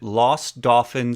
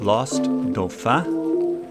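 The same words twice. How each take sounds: First: The name is said with an English pronunciation. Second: The name is said with a French pronunciation. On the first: This is how locals say it. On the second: This is the technically correct form.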